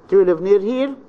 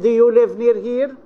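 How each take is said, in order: First: The voice starts low and rises to medium pitch. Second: The voice does not make a low-to-medium rise. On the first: The question is friendly and polite. The speaker calls it right. "friendly and polite expressions" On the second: The question comes across as rude. The speaker calls it wrong. "It's quite impolite"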